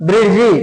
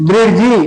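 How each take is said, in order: No difference in how they are said.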